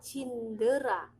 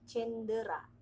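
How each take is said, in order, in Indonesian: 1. Suku kata pertama diucapkan dengan vokal i. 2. Suku kata pertama diucapkan dengan vokal e. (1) "bukan cindera" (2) "tapi cendera, pakai E bukan pakai I"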